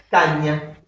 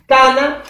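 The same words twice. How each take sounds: First: Caña with the ñ sound, softly; palatal ñ. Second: Cana with a plain n, stress on ca. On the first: Teacher contrasting word pairs, caña with ñ. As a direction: say caña stressing the ñ. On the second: Teacher contrasting word pairs, plain Cana. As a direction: say Cana clearly with ordinary n. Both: Shown as a demonstration. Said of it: "¿Qué pasó ahí?".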